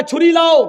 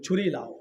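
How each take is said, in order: First: Louder, higher order to fetch the knife; firm command. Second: چھری لاؤ said low and soft; quiet order. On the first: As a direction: command it sternly. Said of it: "حضرت عمر نے کہا". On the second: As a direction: murmur the order to fetch the knife. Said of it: "اپنے غلام سے کہا". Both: Acted.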